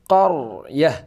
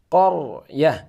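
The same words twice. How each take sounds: Both takes have the same delivery.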